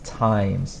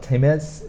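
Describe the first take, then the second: First: The vowel sounds long, as in 'time'. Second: The vowel sounds short, as in 'tim'. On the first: The speaker calls it right. "This E changes the sound of this I" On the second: The speaker calls it wrong. "It's not times"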